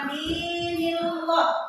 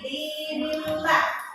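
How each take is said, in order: First: The L is heavy, with a full, thick sound. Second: The L is light, with a thin sound. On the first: The speaker calls it wrong. "Ini bukan dinillah" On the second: The speaker calls it right. "tapi dinillah"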